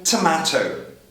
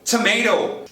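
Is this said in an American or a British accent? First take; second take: British; American. First: A long ah vowel and a clear t. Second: The middle t is a soft r-like tap. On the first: "Os britânicos vão manter o T, mudar o som de vogal para A longo" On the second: "Os americanos vão mandar tomato, tomato, transformando o T em R"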